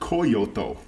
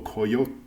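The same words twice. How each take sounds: First: It is said with three syllables, Kee-yo-to. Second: It is said with two syllables, Kyo-to. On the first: The speaker calls it wrong. "like Toyota" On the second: The speaker calls it right. "it's Kyoto without the O"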